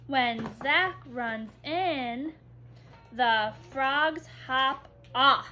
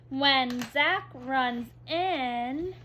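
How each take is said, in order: First: "When Zach runs in," slow, pause, then "the frogs hop off"; pause at the comma. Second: "When Zach runs in," slow with a pause after "in"; pause at the comma. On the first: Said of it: "We pause". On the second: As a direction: stop briefly at the comma after "in". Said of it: "this comma means we pause". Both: Shown as a demonstration.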